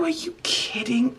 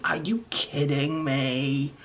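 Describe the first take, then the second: First: High, breathless whisper of amazement; whispered disbelief. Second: Low, slow incredulous drag; drawn-out disbelief. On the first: Vlogger stunned by her crayon art, high whispered disbelief. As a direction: barely breathe it out. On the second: Vlogger stunned by her crayon art, low slow disbelief. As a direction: let the disbelief sink in slowly. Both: Real, not acted.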